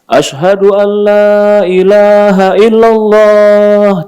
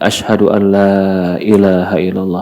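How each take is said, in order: First: The phrase is said in a loud voice. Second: The phrase is said in a soft voice. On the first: "Tinggi, besar suaranya" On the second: "Lalu dia lirihkan lagi"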